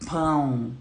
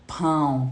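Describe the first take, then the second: First: The vowel is nasalized. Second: The vowel is nasalized.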